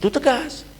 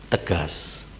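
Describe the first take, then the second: First: "Itu tegas" raised high, with stress on "tegas"; firm decision. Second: "tegas" said low and soft, set apart after a pause; a pastor shows firmness needs no shouting, then says "tegas" low and soft; firm, not shouted. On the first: A pastor sums up firmness, calling "Itu tegas" out high. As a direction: hit "tegas" high as the final verdict. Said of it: "Tegas itu". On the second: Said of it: "Kalau teriak-teriak itu kasar namanya". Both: Shown as a demonstration.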